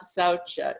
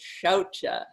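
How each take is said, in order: First: The word begins with a plain s sound. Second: The word begins with a sh sound. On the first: The speaker calls it wrong. "but it's not saucha" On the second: The speaker calls it right. "it's shaucha"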